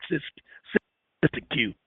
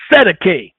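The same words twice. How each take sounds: First: "Siskiyou" said SIS-tuh-kyoo, softly; own pronunciation "Siskiyou". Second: "Sedeke" in three syllables, ending in "kay"; pronounced "Sedeke". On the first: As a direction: say "Siskiyou" low, ending in "kyoo". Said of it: "I do it Sis". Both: Shown as a demonstration.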